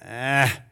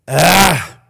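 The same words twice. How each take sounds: First: It is said in an ordinary voice. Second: It is said in a demonic, guttural voice.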